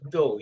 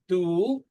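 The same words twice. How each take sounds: First: The vowel sounds like the 'u' in 'cup'. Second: The vowel sounds like the 'oo' in 'pool'. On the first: The speaker calls it right. "It's dull. You pronounced it correctly" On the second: The speaker calls it wrong. "it's not dull, right? ... some people pronounce it like D double O"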